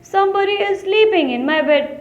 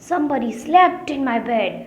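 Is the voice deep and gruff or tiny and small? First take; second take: tiny small; deep gruff. First: It is said in a tiny little voice. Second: It is said in a big, gruff voice.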